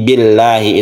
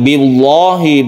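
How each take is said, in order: First: The L sound is light and thin. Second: The L sound is heavy and thick. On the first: The speaker calls it right. "tapi billahi. Itulah yang disebut dengan tarkik atau muraqqaqah" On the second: The speaker calls it wrong. "bukan billahi"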